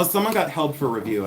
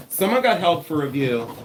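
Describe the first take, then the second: First: Said in the usual way. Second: Real, slightly yelled announcement; raised voice. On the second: Real, not acted. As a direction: raise your voice without a full shout. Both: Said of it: "Why am I yelling?".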